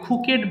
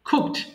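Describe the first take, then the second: First: An extra vowel comes before the final d. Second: The final d follows the k directly. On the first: The speaker calls it wrong. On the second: The speaker calls it right.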